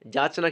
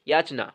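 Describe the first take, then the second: First: The word begins with a j sound. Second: The word begins with a y sound. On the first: The speaker calls it wrong. "যাচনা কিন্তু হবে না" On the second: The speaker calls it right. "হয় কিন্তু অন্তঃস্থ"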